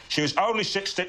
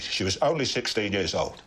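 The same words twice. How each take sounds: First: High-pitched emotional Cockney outburst; Michael Caine. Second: Slow, broken-voiced emotional Cockney; Michael Caine. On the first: Friend topping his demonstration, high anguished Cockney. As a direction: let the emotion push the voice up high. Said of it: "gets very emotional indeed". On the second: Friend demonstrating an emotional actor, slow broken Cockney. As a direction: let the voice break, slowly. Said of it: "the broken voice". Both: Shown as a demonstration.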